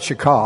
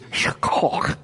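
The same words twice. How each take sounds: First: The middle consonant is a plain, soft k sound. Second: The middle consonant is a rough, throaty sound. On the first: The speaker calls it wrong. "it's not shaka like I do in Pottawatomie County" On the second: The speaker calls it right. "It's got some phlegm in there"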